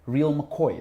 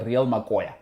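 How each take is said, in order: First: The last word has two syllables, ending in 'oy'. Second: The last word has three syllables, ending in 'oya'. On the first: The speaker calls it wrong. "Now the Brits say real McCoy. That's not how you say it" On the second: The speaker calls it right. "It's the real Makoya"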